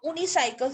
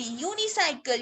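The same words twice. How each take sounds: First: यूनिसाइकिल as "oonicycle"; mispronounced without y. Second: यूनिसाइकिल as "yoonicycle"; correct y-sound pronunciation. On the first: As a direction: start यूनिसाइकिल on a bare "oo". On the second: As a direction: open यूनिसाइकिल with a y glide. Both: Shown as a demonstration. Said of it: "इसकी correct pronunciation ही".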